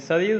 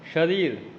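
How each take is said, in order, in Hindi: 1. पहली ध्वनि साधारण 's' है। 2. पहली ध्वनि 'sh' है।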